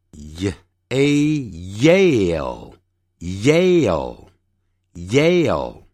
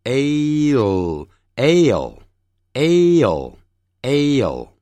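First: "Yale" built slowly from y plus long a; with y glide. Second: "ale" starting straight on long a; without y. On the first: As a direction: start "Yale" on a clear y. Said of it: "y加元音或无y加元音的". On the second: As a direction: draw out "ale" with no y in front. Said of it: "无y加元音的". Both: Shown as a demonstration.

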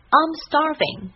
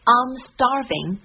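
First: Second take much higher, falling on starving. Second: First take slow with a rising end; drawn out, rising on the end; slow model phrase. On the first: Teacher repeats the phrase higher, falling to close. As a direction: lift it high, then let it fall. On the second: Teacher models the phrase slowly, rising. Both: Shown as a demonstration. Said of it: "很多人经常会用到的一句话".

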